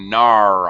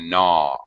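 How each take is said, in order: First: The word ends with an added r sound. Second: The word ends in a vowel without r. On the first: The speaker calls it wrong. "You're gonna gnar on something. No" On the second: The speaker calls it right. "you're gonna gnaw on it"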